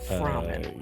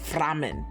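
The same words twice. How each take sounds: First: It is said in a plain, unaccented way. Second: It is said with a German accent.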